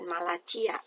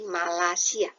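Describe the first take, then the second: First: The c is pronounced as a ch sound. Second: The c is pronounced as an s sound. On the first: The speaker calls it wrong. "C itu tidak dibaca C ya, jadi bukan Malacia" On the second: The speaker calls it right. "bukan, tapi Malasia"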